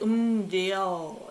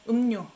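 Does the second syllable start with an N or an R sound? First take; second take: R; N. First: The second syllable starts with an R sound. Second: The second syllable starts with an N sound. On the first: The speaker calls it wrong. "I don't pronounce it as 음료" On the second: The speaker calls it right. "R becomes N"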